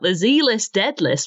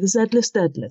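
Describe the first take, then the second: First: Z is said the American way, as zee. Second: Z is said the British way, as zed.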